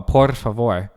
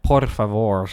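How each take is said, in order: First: Slow, loud por favor with the R of por trilled; R rolled into F. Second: Por favor with the last R trilled too; final R rolled. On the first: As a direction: roll por into favor, leave the final R unrolled. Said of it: "Like that, right?". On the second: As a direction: overdo it, rolling the R that ends favor. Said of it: "the R at the end". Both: Shown as a demonstration.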